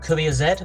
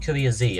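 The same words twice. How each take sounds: First: The letter Z is said the British way. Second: The letter Z is said the American way.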